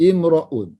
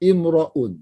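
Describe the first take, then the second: First: The vowel after r is an 'a' sound. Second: The vowel after r is an 'a' sound.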